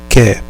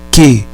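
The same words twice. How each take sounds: First: QUER as "keh" with open é, no R; "quer" with a wide, open vowel; open E after K. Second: QUE as "keh" with closed ê; "que" with a tight, closed vowel; closed E after K. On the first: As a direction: say "quer" as a hard K plus open é. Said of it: "ou como quer". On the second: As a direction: say "que" as a hard K plus closed ê. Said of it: "você vai pronunciar como". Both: Shown as a demonstration.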